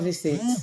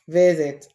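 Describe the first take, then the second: First: The s is said as a hissing s sound. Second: The s is said as a buzzing z sound. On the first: The speaker calls it wrong. "and not" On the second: The speaker calls it right. "S letter but sounds Z"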